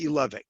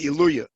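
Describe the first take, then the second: First: The last syllable starts with a V sound. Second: The last syllable starts with a Y sound. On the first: The speaker calls it right. "the correct dictic way" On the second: The speaker calls it wrong. "that's the yeshivish way of pronouncing it"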